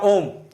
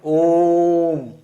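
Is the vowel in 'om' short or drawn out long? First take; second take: short; long. First: The vowel is said at ordinary short length. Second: The vowel is drawn out for three beats. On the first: Someone is being called by name. "किसी को नाम से पुकारा ओम" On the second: It is chanted as a mantra. "इसे तीन मात्रा जितना खींचना है"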